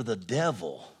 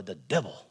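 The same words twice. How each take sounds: First: Said in the usual way. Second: Low, soft comic film quote; Waterboy movie voice. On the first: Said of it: "or as it would say on the water boy". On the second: Retold or imitated. Preacher quoting a comedy film mid-scripture, Waterboy movie voice. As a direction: lightly imitate a movie line, dropped low. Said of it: "as it would say on the water boy".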